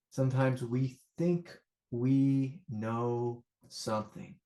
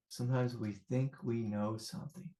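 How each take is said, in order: First: "think we know something" stretched out slowly; slow, drawn-out emphasis. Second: Soft reflective repeat. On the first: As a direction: draw out each word of "think we know something". First take of repeated teaching line. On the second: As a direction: let "think we know something" fall to a soft, gentle voice. Repeats the line softly. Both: Real, not acted.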